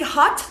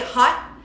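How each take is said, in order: First: The final T is released with aspiration. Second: The final T is held silent, unreleased. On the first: "con el T aspirado" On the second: "sometimes we just mute it"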